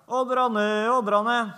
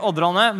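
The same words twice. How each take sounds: First: Sing-song holler with stretched vowels; calling out. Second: Said in the usual way. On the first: Retold or imitated. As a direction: call the sheep across a field with long held notes. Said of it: "og så roper han". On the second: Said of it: "Nei, han roper ikke".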